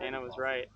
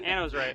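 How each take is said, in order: First: It is said at a normal, quieter volume. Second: It is said more loudly.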